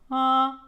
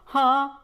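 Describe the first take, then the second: First: It starts with a weaker, lighter H. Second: It starts with a strong, clearly audible H. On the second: "you will decrease that H"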